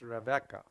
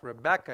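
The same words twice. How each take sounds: First: The second consonant is a V sound. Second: The second consonant is a B sound. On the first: The speaker calls it right. "it's Rebecca" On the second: The speaker calls it wrong. "Rebecca is not"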